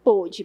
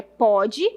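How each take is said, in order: First: PÔDE with a closed "ô", as past tense; contrasted closed-o "pôde". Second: PODE with an open "ó", as present tense; contrasted open-o "pode". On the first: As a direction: round and narrow the vowel of "pôde". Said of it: "Uma coisa é pode". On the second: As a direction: open the vowel of "pode" like "póde". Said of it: "outra coisa é pôde". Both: Shown as a demonstration.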